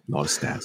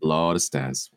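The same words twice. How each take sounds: First: Breathless whisper of the same words; whispered repeat. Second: Said in the usual way. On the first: Shown as a demonstration. Host whispering his own joke back to the guest. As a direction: drop to a whisper for the echo.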